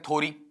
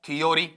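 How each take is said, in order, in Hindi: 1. पहला अक्षर सादा 'tho' है। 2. बीच में 'yo' वाले तीन अक्षर हैं। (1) "बच्चे कई बार ऐसा पढ़ देते हैं" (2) "या फिर हम ऐसा पढ़ देते हैं"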